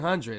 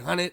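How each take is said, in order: First: Every sound in the word is clearly pronounced. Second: The middle sounds are dropped or slurred together. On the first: This is the speaker's own way of saying it. The speaker calls it right. "I say hundred" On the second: This is a way the speaker avoids saying it. The speaker calls it wrong. "I don't say hundred"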